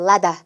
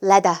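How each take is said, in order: No difference in how they are said.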